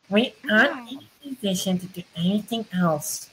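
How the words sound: The voice is put on and high-pitched. "That was just high-pitched"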